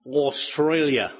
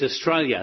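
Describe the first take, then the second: First: Australia said slowly with a full, open "Aws" at the start; full-vowel pronunciation. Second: Australia said quickly, first syllable shrunk to "uh": uh-STRAY-lya; local pronunciation. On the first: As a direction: draw out "Australia", opening on a clear "Aws". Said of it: "actually it's Australia". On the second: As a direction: reduce the start of "Australia" to a quick "uh". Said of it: "that's the way you say it". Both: Shown as a demonstration.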